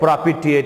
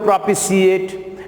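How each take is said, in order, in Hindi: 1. बीच का व्यंजन t ध्वनि है। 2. बीच का व्यंजन sh ध्वनि है। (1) "लेकिन शुद्ध हिंदी में प्रोपिटिएट बोलेंगे" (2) "अब सी भी जोड़ सकते हो"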